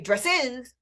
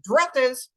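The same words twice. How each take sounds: First: The stress is on the second syllable. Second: The stress is on the first syllable. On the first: The speaker calls it wrong. "I wouldn't say dresses" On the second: The speaker calls it right. "I'd say dresses"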